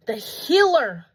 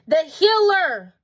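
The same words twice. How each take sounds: First: Said in the usual way. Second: "Healer" repeated higher and louder, slowly; emphatic repeat. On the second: Acted. Preaching to viewers, the Healer stressed high and loud. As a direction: lean hard into "Healer" the second time.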